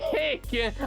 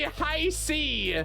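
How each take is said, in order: First: It is said as one short syllable, hick. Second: It is said as two syllables, high C. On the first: This is how the speaker personally says it. "I say hick" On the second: This is how the speaker does not say it. "I don't say high C"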